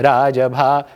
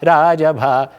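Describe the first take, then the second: First: The beat falls on the first syllable, रा. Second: The beat falls on the first syllable, रा.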